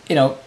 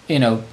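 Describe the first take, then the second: No difference in how they are said.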